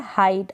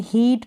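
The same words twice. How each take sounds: First: Said in the usual way. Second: हीट with a long "ee" instead of "eye"; wrong-reading demo, हीट with an ee vowel; mispronounced vowel. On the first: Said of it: "आई pronounce कर रहे हैं". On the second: Shown as a demonstration. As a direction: say हीट like English "heat". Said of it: "हीट pronounce नहीं करेंगे".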